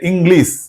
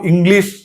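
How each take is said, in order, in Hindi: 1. शब्द सादी s ध्वनि पर खत्म होता है। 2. शब्द साफ़ sh ध्वनि पर खत्म होता है। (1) "एच को अवॉइड कर देते हैं" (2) "इंग्लिश को इंग्लिश ही कहना है"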